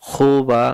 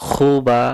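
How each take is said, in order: The two takes are said the same way.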